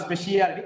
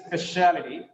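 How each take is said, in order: First: "speciality" as spe-shi-A-li-ty; wrong pronunciation, "shi-a". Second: "speciality" as spe-SHA-li-ty; one syllable SHA in "speciality"; correct pronunciation, "sha". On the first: Teacher showing the mistake, "speciality" said spe-shi-A-li-ty. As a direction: add an extra "i" inside "speciality". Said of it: "It is not speciality". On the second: Teacher correcting the mistake, "speciality" said spe-SHA-li-ty. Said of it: "it's speciality". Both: Shown as a demonstration.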